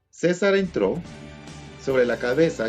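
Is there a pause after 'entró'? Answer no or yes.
yes. There is a pause after 'entró'. Caesar entered, and on his head he wore the helmet. The speaker calls it right. "el uso correcto, ya colocando los signos de puntuación o la coma correctamente"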